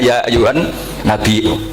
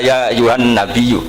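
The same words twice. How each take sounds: First: A glottal stop comes before the last vowel. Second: A y sound replaces the glottal stop. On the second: "disuruh mentakhfif gak bisa"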